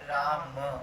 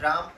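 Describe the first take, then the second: First: The name ends with a faint a sound. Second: The name ends on the consonant m. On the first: The speaker calls it right. "there's a slight a there" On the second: The speaker calls it wrong. "वो राम नहीं होता है"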